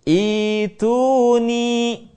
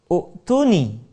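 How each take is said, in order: First: The word begins with an i vowel. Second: The word begins with a u vowel. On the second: "yang semestinya"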